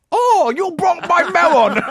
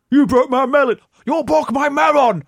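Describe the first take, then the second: First: Very high, slow laughing tourist voice; mock Japanese tourist. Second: Mock Japanese tourist. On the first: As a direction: overdo the wailing tourist, laughing. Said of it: "do your racist voice". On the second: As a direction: wail it like a scammed tourist. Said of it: "drop a melon and go".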